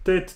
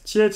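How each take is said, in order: First: The word is said without a glide after the t. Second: The word has a y-like glide after the t.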